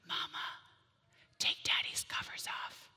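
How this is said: It is said in a soft whisper. "She would whisper to me"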